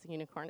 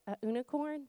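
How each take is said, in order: First: Said in the usual way. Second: "unicorn" said as "oo-nicorn", higher and soft; little girl's questioning "unicorn", starting "oo"; toddler's pronunciation. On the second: Retold or imitated. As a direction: imitate a small child saying "unicorn" without the y sound. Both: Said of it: "That's what she calls a unicorn".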